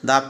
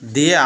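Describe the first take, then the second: First: The word ends in a short, neutral vowel. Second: The word ends in a long 'ee' vowel. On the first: The next word starts with a consonant. "এজন্য এটা দা উচ্চারণ হয়েছে।" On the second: The next word starts with a vowel. "প্রথমে উচ্চারণ হলো দি।"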